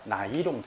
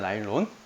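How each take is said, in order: First: The word is said as 'na-i-rong'. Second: The word is said as 'na-il-lon'. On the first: The speaker calls it wrong. "이게 좀 일본식 발음이에요. 좋진 않은데" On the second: The speaker calls it right. "원래 나일론입니다"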